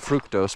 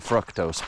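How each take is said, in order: First: The first syllable sounds like 'fruit'. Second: The first syllable does not sound like 'fruit'. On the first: It is named after fruit. "I call it fructose because it's in fruit a lot" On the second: This is how other people say it. "Some people call it fructose"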